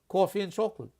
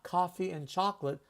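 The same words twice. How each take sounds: First: It is said in a New York accent. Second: It is said in a neutral, non-New York accent. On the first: "I love the way New Yorkers in Manhattan say coffee" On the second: "Not coffee and chocolate"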